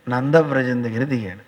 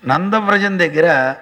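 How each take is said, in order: First: Said in the usual way. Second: నందవ్రజం said slowly and weighed, falling at the end; slow repeat for emphasis. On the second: Shown as a demonstration.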